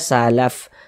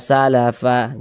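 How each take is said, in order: First: The word ends on a bare final consonant. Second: The word ends with a final vowel sound. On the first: The speaker calls it right. "kalau kita berhenti ya mengakhiri bacaan di huruf fa, kita baca salaf" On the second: The speaker calls it wrong. "Jangan dibaca ma salafa, jangan"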